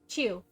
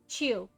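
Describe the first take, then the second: No difference in how they are said.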